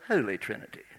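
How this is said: It is said in a posh, upper-class accent. "And all their staff are Etonians. they say Holy Trinity"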